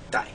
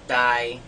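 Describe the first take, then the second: First: The tone starts low and falls lower. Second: The tone stays flat at mid pitch. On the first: "a very low falling tone" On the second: "one is a flat mid-tone"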